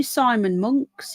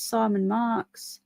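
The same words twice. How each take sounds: First: Monks said as /mʊŋks/, rhymes with trunks; owning up to a wrong name with a laugh: saying Monks, rising. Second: Marks said with a clear /ɑɹ/, as in car; right name. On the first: Host to viewer she misnames, saying Monks with a rise. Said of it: "It's not, it's Simon Marks". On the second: Host fixing viewer's surname, slightly softer Marks. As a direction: corrects herself to Marks, a bit softer. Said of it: "it's Simon Marks". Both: Shown as a demonstration.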